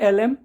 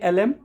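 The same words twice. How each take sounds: The two takes are said the same way.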